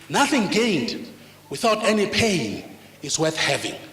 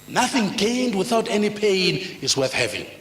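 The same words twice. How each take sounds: First: It is spoken slowly and deliberately. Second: It is spoken at a normal pace.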